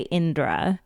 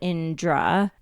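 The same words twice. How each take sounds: First: The name is said with plain English sounds. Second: The name is said with a J-like sound. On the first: The speaker calls it right. "So if it's not that, then say Indra. I prefer that" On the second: The speaker calls it wrong. "Like the J is the part"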